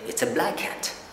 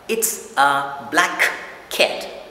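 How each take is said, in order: First: The two K sounds merge into one. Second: The K sound is pronounced twice, separately. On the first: "the two K are combined or put into one" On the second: "instead of saying"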